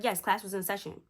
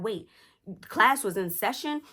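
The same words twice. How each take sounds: First: Said in the usual way. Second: Imitated incredulous mom checking "session"; startled question. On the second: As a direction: query "class was in session" with raised pitch, taken aback. Mom's startled question, then answer.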